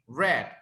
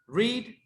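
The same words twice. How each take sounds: First: It has the past tense pronunciation. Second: It has the present tense pronunciation. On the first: The action happened before now. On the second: The action happens now or habitually.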